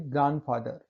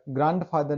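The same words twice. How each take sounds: First: ग्रैंडफादर with no first d, "gran-father"; silent d. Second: ग्रैंडफादर with the d sounded, "grand-father"; pronounced d. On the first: Teacher correcting for students, silent d in ग्रैंडफादर. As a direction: go from n straight to f in ग्रैंडफादर. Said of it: "only ग्रैंडफादर". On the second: Teacher showing students the mistake, d sounded in ग्रैंडफादर. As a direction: voice the d after gran in ग्रैंडफादर. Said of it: "ग्रैंडफादर नहीं". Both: Shown as a demonstration.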